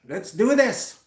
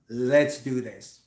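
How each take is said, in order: First: It is said breathlessly, gasping for air. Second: It is said with a steady, composed breath. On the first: The speaker is unprepared and nervous. The speaker calls it wrong. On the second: The speaker is prepared and confident. The speaker calls it right.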